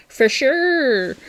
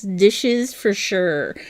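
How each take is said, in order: First: Put-on light Canadian accent on "For sure"; a playful hint of a Canadian accent; a hammed-up Canadian "for sure". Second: Said in the usual way. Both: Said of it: "that sounds very Canadian there".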